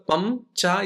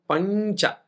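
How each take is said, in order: First: The nasal before ch is an m sound. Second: The nasal before ch is an n sound. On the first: The speaker calls it wrong. "Pamcha is different than Pancha" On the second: The speaker calls it right. "Pamcha is different than Pancha"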